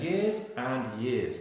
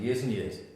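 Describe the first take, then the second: First: Each word is said fully and separately. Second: The words run together with a reduced 'and'. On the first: The speaker calls it wrong. "I'm not saying years and years" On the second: The speaker calls it right. "And I'm also chunking"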